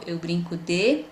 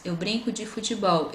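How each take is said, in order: First: "de" held and lifted at the end; fill-in prompt left hanging on a rising "de"; unfinished cue phrase. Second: Said in the usual way. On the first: Shown as a demonstration. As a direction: cue the child with an open, stretched "de". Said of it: "mas sem a última palavra". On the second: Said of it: "tem várias frases aqui".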